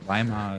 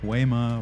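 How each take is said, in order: First: It is said with the native German pronunciation. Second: It is said with a close, non-native pronunciation. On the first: The speaker calls it right. "Weimar is like how you pronounce it" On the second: The speaker calls it wrong. "but like Weimar, Weimar, it's so close"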